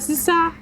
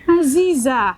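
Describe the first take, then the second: First: The middle consonant is a hissing s sound. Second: The middle consonant is a buzzing z sound. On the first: The speaker calls it wrong. "It's not Asisa" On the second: The speaker calls it right.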